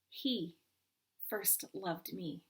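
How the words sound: The stress falls on the word he. "Emphasize the first"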